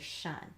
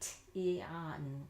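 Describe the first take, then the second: First: The ending is said as one sound, shun. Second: The letters are sounded out separately, starting with t. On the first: The speaker calls it right. "We just say shun" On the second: The speaker calls it wrong. "We don't say t-on"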